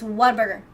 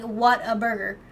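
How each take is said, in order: First: The words run together as one word. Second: The words are said separately with small breaks. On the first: The speaker calls it right. "you say it all in one word" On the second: The speaker calls it wrong. "You don't say it like separate"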